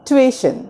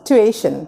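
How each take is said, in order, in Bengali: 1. শব্দটি 'too' দিয়ে শুরু হয়, তারপর 'ay'। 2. শব্দটি 'too' দিয়ে শুরু হয়, তারপর 'ay'।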